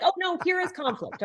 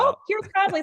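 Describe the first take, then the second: First: High, hammed-up dismay; mock alarm. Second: High, mock-shocked gasp of a line; mock surprise. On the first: Coach mocking a dismayed team member, hammed-up high alarm. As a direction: act alarmed, tongue in cheek. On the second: Coach mocking a surprised team member, high and shocked. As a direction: play it as if conflict were a shock.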